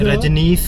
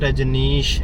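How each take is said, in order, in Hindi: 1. नाम का अंत साधारण s की आवाज़ से होता है। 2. नाम का अंत sh की आवाज़ से होता है। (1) "रजनीश नहीं है" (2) "रजनीश है"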